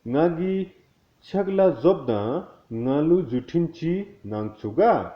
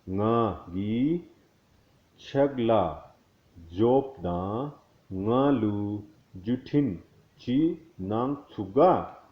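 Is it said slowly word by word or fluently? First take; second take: fluently; slowly. First: It is said fluently, at normal speed. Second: It is said slowly, word by word.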